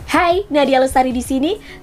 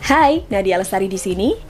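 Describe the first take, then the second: First: The voice is higher, lively and faster. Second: The voice is low, flat and slower.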